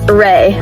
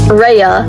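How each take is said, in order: First: One syllable ending in an ay sound. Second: Two syllables, an ee sound then uh. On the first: The speaker calls it right. "now I know it's pronounced as Ray, like Reagan" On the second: The speaker calls it wrong. "At first, I pronounced it as Rhea, like Rhea Sylvia"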